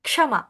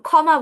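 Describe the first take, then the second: First: The word begins with a half k then sh. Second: The word begins with a single kh sound. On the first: This is the Sanskrit pronunciation. "প্রথমে ক অর্ধেক অল্প ক, তারপর ক্ষ, দুটো একসাথে হয়" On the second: This is the everyday Bengali pronunciation. "আমরা আহ খ এর মতো উচ্চারণ করি"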